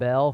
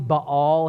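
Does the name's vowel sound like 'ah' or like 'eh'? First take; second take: eh; ah. First: The vowel is a short 'eh' sound. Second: The vowel is a long open 'ah' sound. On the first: "we'll call him Bell for just because I'm from West Virginia" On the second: "it's probably Baal here"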